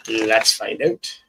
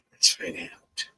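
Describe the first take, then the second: First: Said in the usual way. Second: Whispered Canadian "Let's find out", soft and breathy; Canadian accent. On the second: Shown as a demonstration. Tarot reader hushing to viewers in Canadian accent. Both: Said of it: "I did that in Canadian accent".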